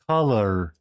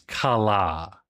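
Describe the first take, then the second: First: The final R is pronounced. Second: The final R is dropped, Aussie style.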